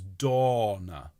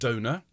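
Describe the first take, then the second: First: The first vowel is an open, lengthened 'aw' sound. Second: The first vowel is a closer 'oh' sound. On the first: The speaker calls it right. "a tall O sound, okay, like orange, but then extend it" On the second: The speaker calls it wrong. "it's not Donna. uh, for which you carry a card"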